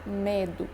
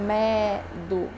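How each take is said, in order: First: Medo with a half-closed Ê. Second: Medo with an open È; wrong open E. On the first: Teacher gives the correct closed E in medo. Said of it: "eu digo medo". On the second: Teacher shows the wrong open E in medo. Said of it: "eu não digo". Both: Shown as a demonstration.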